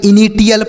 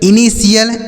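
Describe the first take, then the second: First: The middle consonant is a t sound. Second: The middle consonant is an sh sound. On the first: The speaker calls it wrong. "टी एल पढ़ेंगे... गलत उच्चारण होता है" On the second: The speaker calls it right. "इसे आपको ऐसे पढ़ना जैसे हमने बताया"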